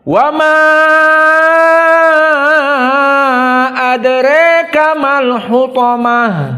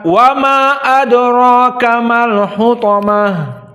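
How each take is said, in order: First: The vowel of 'ma' is drawn out very long. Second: The vowel of 'ma' is kept short. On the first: "dibaca dengan isba' dari majaiz munfasil ma'al imalah al-kubra" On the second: "kepada qasru jaiz munfasil"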